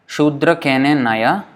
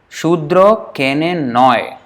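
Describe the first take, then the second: First: It is read with Sanskrit-style pronunciation. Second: It is read with Bengali-style pronunciation. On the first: The speaker calls it wrong. "This is how we would probably read it in if it was Sanskrit" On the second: The speaker calls it right. "It's not Naya"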